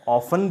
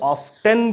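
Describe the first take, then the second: First: The t sound is silent. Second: The t sound is clearly pronounced. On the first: "जहां टी silent होता है" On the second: "जहां टी पूरी तरह से उच्चारण किया जाता है"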